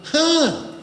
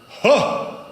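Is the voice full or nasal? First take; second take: nasal; full. First: It is said through the nose. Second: It is said with full breath support.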